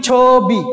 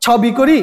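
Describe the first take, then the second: First: ছবি said as "chho-bi" with a closed o; ছবি drawn out as chhoo-bi; correct pronunciation. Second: ছবি said with an open vowel, "chhaw-bi"; ছবি with open "aw" in the first syllable; wrong vowel. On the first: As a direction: say ছবি with a held o in the first syllable. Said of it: "উচ্চারণ করি কি". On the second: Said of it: "উচ্চারণটা কি". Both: Shown as a demonstration.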